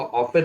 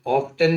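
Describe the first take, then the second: First: "ऑफन" with F going straight to the vowel; silent t. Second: "ऑफ्टन" with a hard T after F; t sounded. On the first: Teacher giving the correct reading, "ऑफन" with silent T. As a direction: say "ऑफन" without any T. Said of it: "होगा ऑफन". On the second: Teacher warning against a reading, T sounded in "ऑफ्टन". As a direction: say "ऑफ्टन", pronouncing the T. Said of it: "ऑफ्टन ना हो के". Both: Shown as a demonstration.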